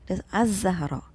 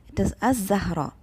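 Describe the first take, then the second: No difference in how they are said.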